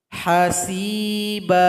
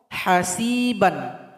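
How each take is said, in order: First: The word ends with a lengthened a, no n. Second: The word ends with a short a and n. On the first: The reading stops at this word. "karena kita berhenti maka menjadi mad" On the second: The reading continues on to the next word.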